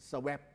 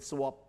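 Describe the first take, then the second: First: "swap" said the way some Thai readers misread it; deliberately wrong "swap", the teacher's bad example; wrong pronunciation. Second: "swap" said as English speakers say it; the teacher's correct "swap" after the wrong one; correct pronunciation. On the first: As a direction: mispronounce "swap" on purpose as the wrong model. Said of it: "มันไม่มีทางออกเสียง swap". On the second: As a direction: give "swap" its proper English sound as the right model. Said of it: "มันต้องเป็น swap". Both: Shown as a demonstration.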